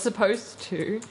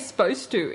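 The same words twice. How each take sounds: First: The first syllable of supposed is fully said. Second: The first syllable of supposed is cut off. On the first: "instead of" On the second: "I say supposed to instead of"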